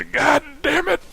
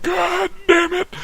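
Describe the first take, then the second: First: Much higher, imitated angry outburst; dad's exasperated curse. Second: Very high, slow, drawn-out yelled curse; dad's furious shout. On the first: Dad losing it over the dog, exasperated curse. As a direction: blurt it like a fed-up father. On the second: Retold or imitated. Dad exploding at the boat shed news, slow furious shout. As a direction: bellow it out, drawing each word.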